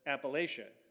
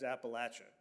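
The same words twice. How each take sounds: First: It is pronounced the way northerners say it. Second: It is pronounced the way southerners say it.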